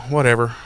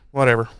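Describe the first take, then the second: No difference in how they are said.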